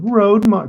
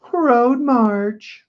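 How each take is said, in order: First: Said in the usual way. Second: "Road march" squeaked out much higher, drawn out; high sing-song "Road march". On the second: Shown as a demonstration. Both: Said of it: "can anyone say".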